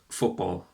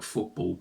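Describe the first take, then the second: First: It is said without an English accent. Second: It is said with an English accent.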